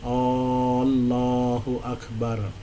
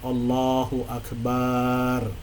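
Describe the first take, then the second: First: The opening vowel of Allah is stretched long. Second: The vowel after b in Akbar is stretched. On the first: "menambah huruf hamzah pada perkataan Allah sehingga bunyi hamzah menjadi panjang" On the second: "menambah alif pada huruf ba pada perkataan akbar"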